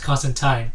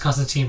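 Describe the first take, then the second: First: The last syllable rhymes with time. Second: The last syllable rhymes with teen. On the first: This is the British way the character himself would say it. The speaker calls it right. "Alan Moore confirmed this" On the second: This is the common American way of saying the name. The speaker calls it wrong. "I know what you're gonna say is pronounced Constantine, but no"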